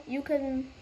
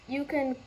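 No difference in how they are said.

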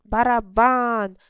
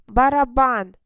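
First: «Барабан» із протягнутим, гучним «бан»; розтягни останній склад у «Барабан»; наголос на останньому складі. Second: «Барабан» чітко й гучно, рівно виділяючи три склади: ба-ра-бан; вимов усі склади в «Барабан» виразно; три чіткі склади. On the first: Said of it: "На останній склад наголос". («Барабан» повільно, з сильним наголосом на «бан») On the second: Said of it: "три склади". («Барабан» гучно, склад до складу, без розтягування) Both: Shown as a demonstration.

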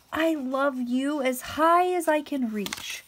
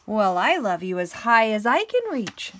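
First: High, loud, slow stretched-out little voice; little hare. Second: Big hare. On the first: Little hare declaring love to big hare, high eager voice. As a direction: reach up high with the little hare's voice. Little hare's line in story. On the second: Big hare outdoing little hare's reach, big loud voice. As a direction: boom it out as the bigger hare. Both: Acted.

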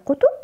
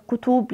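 First: Said in the usual way. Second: "كتب" with the second vowel lengthened to oo; wrong long-vowel plural. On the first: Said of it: "جمع كتاب كتب". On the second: Shown as a demonstration. Teacher quizzing pupils on plurals, "كتب" with a long final oo. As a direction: stretch the last vowel of "كتب", as in kutuub. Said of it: "لا".

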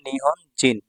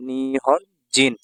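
First: Said in the usual way. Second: Nihon জিন drawn out very slowly, syllable by syllable; slow teaching repeat. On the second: Shown as a demonstration. Teacher to students, repeating Nihon জিন very slowly.

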